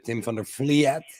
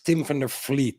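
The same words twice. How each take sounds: First: The name is pronounced with English sounds. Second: The name is pronounced with Dutch sounds. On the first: This is how foreigners usually say it. "English people or American people say" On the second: This is the official way to say it. "but it's"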